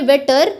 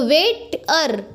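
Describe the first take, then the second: First: Said in the usual way. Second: waiter slowly broken as "wait - er"; slow waiter with a pause before "er"; split into syllables. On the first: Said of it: "जैसे हम बोल रहे हैं". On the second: Shown as a demonstration. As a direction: pull waiter apart into two beats, "wait", then "er". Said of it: "इसमें दो syllable आया है".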